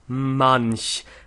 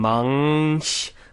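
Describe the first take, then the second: First: The nasal is a plain N sound. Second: The nasal is an NG sound. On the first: The speaker calls it right. "we go to the N and then we go to the C H" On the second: The speaker calls it wrong. "careful that it doesn't become manch, that we don't make an N G"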